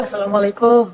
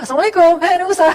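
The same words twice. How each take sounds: First: Droopy, mournful salaam, a little louder; mock pitiful Assalamualaikum; pitiful greeting. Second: Bright eager salaam, higher and much louder; joyful, loud Assalamualaikum to the prophet; cheerful greeting. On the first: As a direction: greet like a weary, hopeless woman. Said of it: "Melas gitu ya". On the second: Acted. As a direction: greet like someone bursting with good news.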